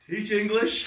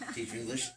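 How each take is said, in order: First: It is said louder, with more force. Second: It is said at a quiet, normal volume.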